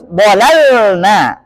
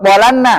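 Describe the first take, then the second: First: The L is clearly held with no vowel. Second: The L is merged into a doubled N. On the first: The speaker calls it right. "Harus bolalna" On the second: The speaker calls it wrong. "Atau lamnya digabungkan ke nun, ... enggak boleh"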